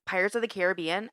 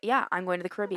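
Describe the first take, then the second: First: Caribbean as care-uh-BEE-un; stress on third syllable. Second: Caribbean as kuh-RIB-ee-un; stress on second syllable. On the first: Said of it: "I think I use it both ways". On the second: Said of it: "and then when I say". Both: Shown as a demonstration.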